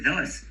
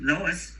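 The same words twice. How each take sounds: First: Dos with a dental D; Spanish dos. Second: Dos with a hard English D; wrong dos. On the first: Teacher showing the correct dos. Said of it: "We say dos". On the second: Teacher showing the wrong dos. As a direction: say dos the anglicized way. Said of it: "We don't say dos". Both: Shown as a demonstration.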